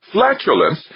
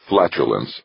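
First: Very high, outraged shriek of "Flatulence"; screamed. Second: Said in the usual way. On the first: A narrator's reading. Westfall hearing Archer's word, screaming it back. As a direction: shriek it in appalled disbelief. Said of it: "she screamed". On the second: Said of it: "said Archer".

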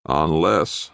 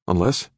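First: "Unless" drawn out, left hanging; leading "Unless". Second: "Unless" short, rising in question. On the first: Attorney hinting at a deal, "Unless" left open. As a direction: dangle "Unless" as an offer. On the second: Nick grasping at the attorney's hint, "Unless" asked. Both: Acted.

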